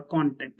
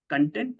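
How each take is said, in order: First: "content" as KON-tent, first syllable stressed. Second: "Content" as kun-TENT, second syllable stressed. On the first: Teacher showing students a word's two readings, "content" stressed KON-tent. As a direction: say "content" like the social media noun, KON-tent. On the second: Teacher showing students a word's two readings, "Content" stressed kun-TENT. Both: Shown as a demonstration. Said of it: "the way you pronounce it".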